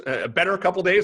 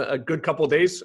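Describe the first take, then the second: First: Better lifted higher and louder; stress on better. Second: Said in the usual way. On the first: Real, not acted. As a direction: correct himself by hitting better. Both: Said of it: "I wouldn't say good, Ed, but better".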